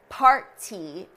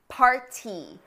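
First: The middle consonant is a clearly released T. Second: The same.

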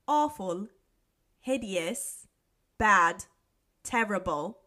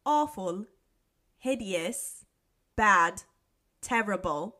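First: It is said in a put-on British accent. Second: The same.

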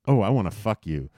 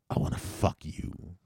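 First: It sounds light and playful. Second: It sounds threatening and menacing.

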